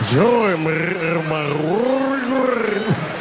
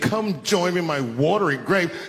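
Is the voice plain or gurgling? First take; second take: gurgling; plain. First: It is said with a rolling, gurgling throat. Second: It is said in a plain voice.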